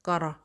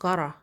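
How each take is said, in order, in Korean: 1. 축약해서 발음합니다. t가 r 소리로 납니다. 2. 축약해서 발음합니다. t가 r 소리로 납니다.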